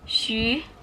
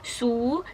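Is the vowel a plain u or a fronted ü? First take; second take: fronted ü; plain u. First: The vowel is a fronted, rounded ü sound. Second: The vowel is a plain back u sound. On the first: The speaker calls it right. "tapi dibacanya shu" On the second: The speaker calls it wrong. "dibacanya bukan su"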